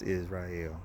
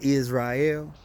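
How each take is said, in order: First: The word is said lightly, low and flat. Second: The word is said with force and spirit. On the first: The person only identifies with the name. The speaker calls it wrong. "when I say it lightly, when I say it low toned, with no spirit" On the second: The person truly lives up to the name. The speaker calls it right. "When I say Israel, I'm talking about you about it"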